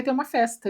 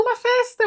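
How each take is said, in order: First: Said in the usual way. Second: Squeals the word festa, way up high and bright; thrilled by the party news; excited. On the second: Acted. As Elle hearing of a party, squealing with delight.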